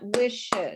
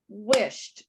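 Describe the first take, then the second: First: The ending is an extra syllable, like 'id'. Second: The ending is a short 't' sound. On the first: The speaker calls it wrong. "not wished" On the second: The speaker calls it right. "only one syllable, one clap"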